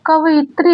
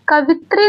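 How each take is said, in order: First: "कवयित्री" as ka-va-yi-tri; correct full form. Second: "कवित्री" as ka-vi-tri, no y glide; short "vi" straight into tri in "कवित्री"; wrong three-syllable form. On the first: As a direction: say "कवयित्री" with the extra va-yi syllables. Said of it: "कवयित्री होता है". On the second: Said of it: "कवित्री नहीं होता है". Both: Shown as a demonstration.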